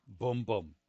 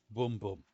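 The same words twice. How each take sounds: The two takes are said the same way.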